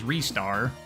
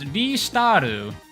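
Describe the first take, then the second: First: The name is said with English-style sounds. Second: The name is said with Japanese-style sounds. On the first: "the closest approximation to that in actual English" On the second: "how a Japanese person would pronounce it"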